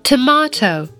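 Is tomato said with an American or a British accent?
British. It is said with a British 'ah' vowel. "在英音里面呢，我们听到佩奇和妈妈他们说的是tomato。他们把这个字母A 发成了啊这个音"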